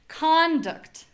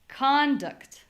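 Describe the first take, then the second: First: The stress is on the first syllable. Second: The stress is on the first syllable.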